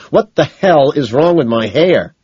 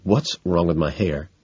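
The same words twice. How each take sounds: First: Loud, high, slow angry demand; rage. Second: Contained panic. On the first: Man demanding answers about his hair, enraged. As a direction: hammer out the question in a rage. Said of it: "my rage quadruples". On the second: Man asking his date about his hair, quietly panicked. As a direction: keep the panic held in. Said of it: "but now I'm panicked, and I ask". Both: A narrator's reading.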